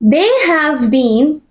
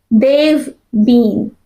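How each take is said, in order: First: The word 'have' is said in full. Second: The word 'have' is shortened onto 'they'.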